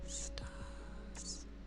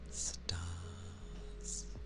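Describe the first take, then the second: First: The word is whispered. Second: The word is spoken aloud in a flat voice. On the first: "I don't know why I'm whispering it" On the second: "it's not a whisper"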